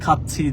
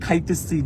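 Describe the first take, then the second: First: It uses the short standard ending 'cchi'. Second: It uses the long colloquial ending 'aitechi'. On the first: The speaker calls it right. "No" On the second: The speaker calls it wrong. "আমি এখনো বলে ফেলি"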